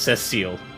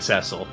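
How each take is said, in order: First: The name ends with a long 'seal' sound. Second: The name ends with a short 'sill' sound. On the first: The speaker calls it right. "It's Cecile" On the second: The speaker calls it wrong. "you've been saying it wrong if you've been saying Cecil"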